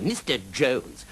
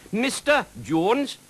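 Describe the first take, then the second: First: Slow, begrudged MISTER Jones, less high; grudging compliance. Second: Very high, slow, insistent correction; correcting dragon. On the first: Knight gives in to the dragon's correction, grudging. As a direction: draw out the title reluctantly. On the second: Dragon corrects how the knight addresses him, insistent. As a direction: draw out MISTER Jones high up. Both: A narrator's reading.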